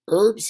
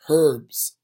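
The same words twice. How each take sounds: First: The word starts without an h sound. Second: The word starts with an h sound. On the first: This is the American way of saying it. The speaker calls it right. "In America, you know, we do it right and just say herbs" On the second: This is the British way of saying it. The speaker calls it wrong. "they pronounce the H"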